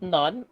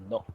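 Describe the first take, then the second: First: It sounds like English 'none'. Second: It sounds like English 'no'. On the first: The speaker calls it wrong. "Not none" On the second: The speaker calls it right. "it's no"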